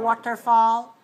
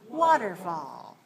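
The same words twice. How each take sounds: First: The stress is on the last syllable. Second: The stress is on the first syllable. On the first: The speaker calls it wrong. "It's not a waterfall" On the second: The speaker calls it right. "stress on the first"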